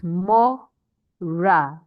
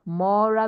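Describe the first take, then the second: First: Very slow MO, pause, RA in 'mora'; syllable by syllable. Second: Said in the usual way. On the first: Shown as a demonstration. Teacher explaining the stressed syllable, 'mora' broken as MO-ra. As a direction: split 'mora' into two separate beats. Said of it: "second to the last syllable will be stressed". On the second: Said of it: "it is mora".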